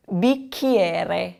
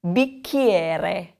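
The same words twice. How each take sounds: First: Bicchiere again, the R rolled clearly; bee-KYEH-reh, trill the R in bicchiere; slow model bicchiere with a rolled R; repeat the model word. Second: Bicchiere, said slowly for repeating; model word. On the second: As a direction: say bicchiere with a hard K, bee-KYEH-reh. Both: Shown as a demonstration. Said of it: "if you remember that C H combination".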